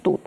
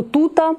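First: Said in the usual way. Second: «тута» said high with an added final а; colloquial тута. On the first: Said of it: "замість". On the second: Shown as a demonstration. Teacher showing pupils the colloquial «тута». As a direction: lift the colloquial «тута» up, as an example. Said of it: "часто можна почути".

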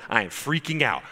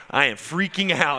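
First: Mild imitation of an excited man; first, smaller take of the amazed quote; retold excitement. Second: Louder, higher imitation of the amazed man; second, bigger take of the amazed quote; building excitement. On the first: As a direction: lightly act out his amazement. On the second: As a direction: push the repeat up into a mock exclaim. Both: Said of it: "walking around in the foyer going".

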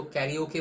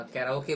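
First: कैरियोके with "ri-yo" in the middle; कैरियोके, an i-glide before the o; variant pronunciation. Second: कैराओके with "ra-o" in the middle; कैराओके, an open a before the o; alternative pronunciation. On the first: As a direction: say कैरियोके as ka-ri-o-kay. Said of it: "कोई इसको कैरियोके बोलते हैं". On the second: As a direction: say कैराओके as ka-ra-o-kay. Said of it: "कैराओके बोलते हैं". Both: Shown as a demonstration.

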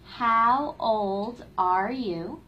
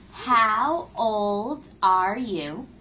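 Both takes have the same delivery.

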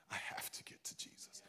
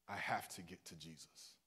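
First: Voiceless urgent whisper. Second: Said in the usual way. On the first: Acted. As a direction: breathe it out as a whisper. Whispered take of same words.

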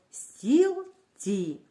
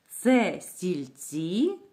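First: Стілці split as стіл, pause, ці; syllable-by-syllable teacher demo of стілці. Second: Very slow question, стільці rising on ЦІ; drawn-out question stressing the last syllable of стільці. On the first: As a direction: break стілці into two clear, separate syllables. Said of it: "Давайте вимовимо слово по складам". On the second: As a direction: ask it with a long, rising ЦІ in стільці. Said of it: "питальний тон". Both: Shown as a demonstration.

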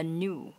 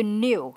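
First: American NEW without the y-glide; American pronunciation. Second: British NEW with a y-glide; British pronunciation. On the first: Teacher shows learners the American sound, American accent. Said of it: "anh Mỹ sẽ phát âm là". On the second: Teacher shows learners the British sound, British accent. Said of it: "anh Anh sẽ phát âm là new". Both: Shown as a demonstration.

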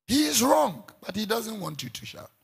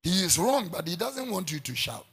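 First: "wrong" much higher and louder, then dropping; emphatic repeat. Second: Said in the usual way. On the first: Shown as a demonstration. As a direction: hammer "wrong" high and hard, then settle. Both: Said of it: "repeated louder".

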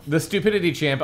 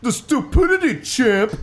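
First: Moderately high, less forceful retort; toned-down retort. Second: Very high, loud put-on squawk; mock it at the top of the pitch; hammed-up, squeaky scorn; exclaimed retort. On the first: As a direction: repeat it raised but not squawked. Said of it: "I said as I almost". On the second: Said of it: "I repeated". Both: A narrator's reading.

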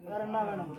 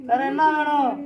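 First: Low, soft asking what more is wanted; hushed oracle question; quiet question. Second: Said in the usual way. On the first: Acted. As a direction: murmur the question. Repeated question, first take.

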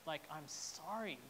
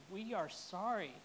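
First: Said in the usual way. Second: "are" lifted and held, correcting "I'm sorry" to a shared apology; "are" said slightly higher and firmer than the words around it; stress on ARE. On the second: Real, not acted.

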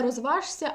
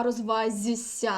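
First: Розважся said as written, with ж before ся; spelled sounds kept apart. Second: Розвазься drawn out slowly, ж turned into soft зь; assimilated zh to soft z. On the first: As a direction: keep the ж audible in розважся. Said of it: "Тобто не". (розважся з вимовою ж, як на письмі) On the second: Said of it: "фонетичній транскрипції пишемо «зіси»". (повільно: розвазься, м'яке зь замість ж) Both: Shown as a demonstration.

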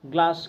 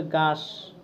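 First: Said in the usual way. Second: গাস, said without the l, slowly; l dropped. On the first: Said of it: "মূল শব্দ গ্লাস". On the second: Shown as a demonstration. Teacher contrasts a child's গাস, without the l, with the real word. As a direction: drop the l: গাস instead of গ্লাস. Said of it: "কিন্তু সে বলবে গাস".

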